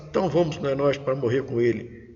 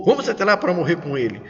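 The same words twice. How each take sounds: First: Subdued, unhurried going-along; resigned intonation. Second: Quicker, more forceful call to go; rallying intonation. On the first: Disciple Tomé agreeing to go and die with Jesus, resigned. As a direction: say it as reluctant, low-key agreement. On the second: Disciple Tomé urging fellow disciples to go with Jesus, rallying. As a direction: urge the others along briskly. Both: Shown as a demonstration. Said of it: "não temos a entonação do texto".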